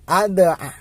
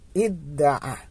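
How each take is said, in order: First: It starts with 'a' and a single 'd'. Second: It starts with 'i' and a doubled 'd'. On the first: The speaker calls it wrong. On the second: The speaker calls it right.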